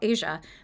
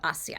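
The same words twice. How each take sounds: First: It has the usual English pronunciation. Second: It has a non-English, foreign-style pronunciation. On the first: "what I, as an English speaker, would call Asia" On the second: "other countries would call it Asia"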